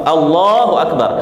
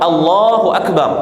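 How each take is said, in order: The two takes are said the same way.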